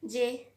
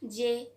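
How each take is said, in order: Both takes have the same delivery.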